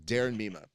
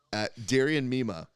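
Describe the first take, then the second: First: "Darren Mima" said carefully, two clean syllables in Darren; correcting himself to "Darren Mima" on the second take; corrected name. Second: Mima said as "Darian Mima", with an extra syllable, the first try; "Darian Mima" read aloud by mistake before correcting it; name said wrong. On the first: Shown as a demonstration. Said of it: "Let me do that again 'cause I think I said his name wrong". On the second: Real, not acted. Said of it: "I think I said his name wrong".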